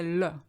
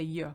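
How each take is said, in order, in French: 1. La consonne se prononce comme un son L. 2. La consonne se prononce comme un son Y. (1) "you don't say le" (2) "you say ye"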